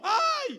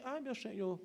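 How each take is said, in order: First: It is shouted loudly in fright. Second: It is said quietly, without shouting.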